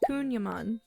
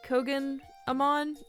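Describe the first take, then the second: First: The name sounds like 'Kunyaman'. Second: The name sounds like 'Kogan Amon'. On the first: The speaker calls it right. "I think I'm pronouncing that right" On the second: The speaker calls it wrong. "I was pronouncing it like Kogan Amon or something like that"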